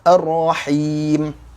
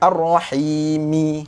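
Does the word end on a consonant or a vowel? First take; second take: consonant; vowel. First: The word ends on a silent, stopped m. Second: The word ends with an added i vowel. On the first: The speaker calls it right. "dibaca dengan Ar-Rahim" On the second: The speaker calls it wrong. "Kita tak baca dengan Ar-Rahimi"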